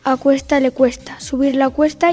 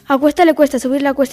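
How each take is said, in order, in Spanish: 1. Se habla a un ritmo normal. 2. Se habla a un ritmo rápido. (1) "A velocidad normal" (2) "Velocidad rápida"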